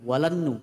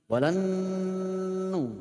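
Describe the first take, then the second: First: The nasal runs straight into the next syllable. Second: The nasal is held before the next syllable. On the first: The speaker calls it wrong. "bukan langsung walan nu" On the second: The speaker calls it right. "sebelum nu-nya itu keluar, ditahan dulu"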